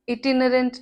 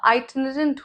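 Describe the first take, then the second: First: The first vowel sounds like 'ih'. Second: The first vowel sounds like 'eye'. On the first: The speaker calls it wrong. "इटिनरेंट नहीं होता" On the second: The speaker calls it right. "आइटनरेंट होता है"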